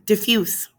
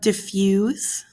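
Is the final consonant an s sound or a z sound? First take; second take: s sound; z sound. First: The word ends with an s sound. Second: The word ends with a z sound. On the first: The speaker calls it right. "It has a s sound, not a z sound" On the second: The speaker calls it wrong. "sorry, I said that wrong"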